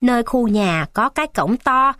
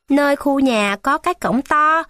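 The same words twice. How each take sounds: First: Said in the usual way. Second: Put-on a boy repeating the words back to learn them; higher child's voice saying "Nơi khu nhà có cái cổng to" by rote; eager child memorising directions; child reciting. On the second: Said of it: "Ân lẩm nhẩm học cho thuộc".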